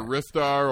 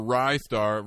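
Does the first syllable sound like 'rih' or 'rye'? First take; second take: rih; rye. First: The first syllable has a short 'i' vowel. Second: The first syllable sounds like 'rye'.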